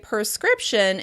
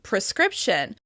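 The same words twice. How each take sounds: First: A schwa comes before the R sound. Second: The R comes directly after the P sound.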